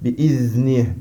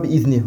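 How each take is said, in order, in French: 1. Le z est légèrement prolongé, avec du souffle. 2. Le z est coupé court, sans souffle. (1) "on dit bi'izni, quand il y a un soukoun on le prolonge légèrement" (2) "On ne dit pas"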